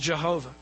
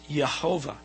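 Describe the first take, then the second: First: The name begins with a J sound. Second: The name begins with a Y sound. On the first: The speaker calls it wrong. "It's not pronounced right" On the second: The speaker calls it right. "in Hebrew you don't pronounce Y's as J's"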